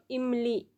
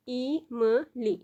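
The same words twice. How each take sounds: First: Said in the usual way. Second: "ई म ली" split into three slow, separate syllables. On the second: Shown as a demonstration. Teacher spelling out इमली for beginners, syllable by syllable. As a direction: break "ई म ली" apart, very slowly. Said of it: "लिख दिया, जैसे ई है तो ये ई म ली".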